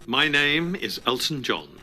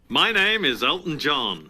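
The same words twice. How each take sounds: First: It is said in a less showy way. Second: It is said in a more showy way.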